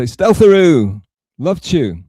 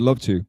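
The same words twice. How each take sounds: First: High, louder cheery greeting; imitating Taz. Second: Said in the usual way. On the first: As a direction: call it out bright and high like a sweet host. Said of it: "she'd say". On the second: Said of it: "I don't think she ever said".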